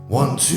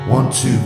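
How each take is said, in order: First: The voice sounds clearer, brighter, with softer s sounds. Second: The voice sounds duller, with more harsh s sounds. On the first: "it's clearer and brighter, and uh, but with less essing" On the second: "this is it with it off"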